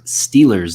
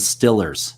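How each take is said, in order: First: The first vowel is a long 'ee' sound. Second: The first vowel is a short 'i' sound. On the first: This is the usual way to say it. "instead of saying the Pittsburgh Steelers" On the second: This is how locals in Pittsburgh say it. "in Pittsburgh, they call them the Stillers"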